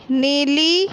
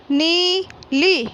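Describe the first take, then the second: First: Said in the usual way. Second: नीली slow, with both ई long; teacher modelling नीली slowly; stretched long ई. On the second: Shown as a demonstration. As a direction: draw out the ई in नीली. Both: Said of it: "इस प्रकार पढ़ना है".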